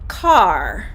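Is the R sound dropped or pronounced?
pronounced. The final R sound is pronounced. "So for me, I would say car"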